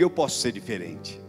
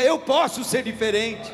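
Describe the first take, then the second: First: It is said at normal loudness. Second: It is said louder still.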